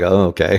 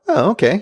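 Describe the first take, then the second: First: The okay sounds flat and unimpressed. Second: The okay sounds lifted and pleasantly surprised. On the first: The ending was merely acceptable. "instead of like" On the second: The ending was a pleasant surprise. "it was like a up okay"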